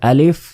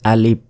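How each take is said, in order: First: The word ends with an f sound. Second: The word ends with a p sound. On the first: The speaker calls it right. "এটা হচ্ছে সরিয়া লয় হস্যই আর ফ" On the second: The speaker calls it wrong. "আমরা অনেকেই বলি আলিফ, এটা কিন্তু ভুল"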